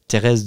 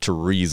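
First: The name is pronounced with French sounds. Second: The name is pronounced with English sounds. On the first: The speaker calls it right. "if you want to pronounce it correctly in French" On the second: The speaker calls it wrong. "not Therese of Lisieux"

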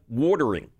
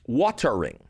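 First: It is said in a Philadelphia accent. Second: It is said in a standard accent.

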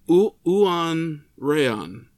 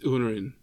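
First: The name is said slowly and carefully. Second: The name is said quickly and run together.

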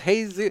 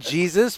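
First: The name is said the bearer's own way. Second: The name is read as it is spelled. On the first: "but it's Jesus" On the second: "It's spelled Jesus"

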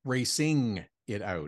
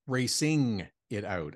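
First: Every sound of 'racing' is fully pronounced. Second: The same.

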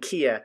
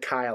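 First: The first vowel sounds like 'ee'. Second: The first vowel sounds like 'eye'. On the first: The speaker calls it right. "but it's actually Kia" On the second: The speaker calls it wrong. "I said Kaya last week"

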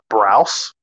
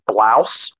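First: The name is said with an R sound. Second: The name is said with an L sound. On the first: This is how the name got rendered in translation. The speaker calls it wrong. "not Browse" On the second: This is the name as originally written. The speaker calls it right. "actually Blouse"

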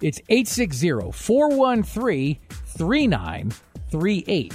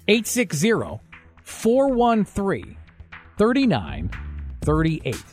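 First: The number is said at normal speed. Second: The number is said a little slowly.

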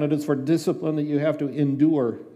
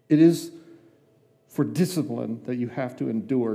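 First: It is read at normal speed. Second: It is read slowly and deliberately.

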